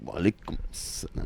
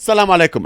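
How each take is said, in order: First: Very soft, trailing greeting; imitated faint, deflated reply; subdued reply. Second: Loud, high farewell; retold send-off, pitched up and loud; emphatic sign-off. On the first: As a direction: answer under the breath, taken aback. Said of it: "he's like". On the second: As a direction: throw out a brisk, forceful goodbye. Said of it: "'Cause I was like this".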